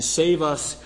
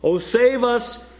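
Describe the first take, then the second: First: Said in the usual way. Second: Higher, slow pleading cry. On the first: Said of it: "he did". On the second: Retold or imitated. Preacher voicing the crowd's plea to Jesus, slow raised cry. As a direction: draw out the plea as a crowd would. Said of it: "he cried, they cried".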